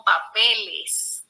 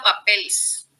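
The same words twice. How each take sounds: First: "papeles" slow and lower, with a full -es ending; correct full plural. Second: "papeles" said as "papels", without the last e; wrong plural, S only. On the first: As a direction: sound the e before the final s in "papeles". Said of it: "sino papeles". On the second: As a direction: drop the e and end "papeles" in a bare -ls. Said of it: "O no he escuchado papeles". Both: Shown as a demonstration.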